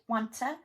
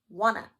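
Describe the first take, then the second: First: The t sound is kept, words joined. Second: The t sound is dropped entirely. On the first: "wanta would be linked" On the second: "wanna is actually deleting parts"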